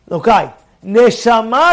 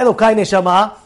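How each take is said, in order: First: There is a clear pause after Elokai. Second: It runs on without a pause after Elokai.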